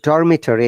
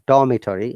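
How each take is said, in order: First: It is said with an American accent, R pronounced. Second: It is said with a British accent, R silent. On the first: "in American accent" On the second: "in British accent"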